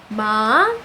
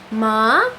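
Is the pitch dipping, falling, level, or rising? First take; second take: rising; rising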